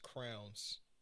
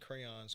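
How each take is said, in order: First: The word sounds like 'crowns'. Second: The word sounds like 'crayons'. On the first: The speaker calls it wrong. "pronounce crayons crowns" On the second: The speaker calls it right. "I don't like people who who pronounce crayons crowns"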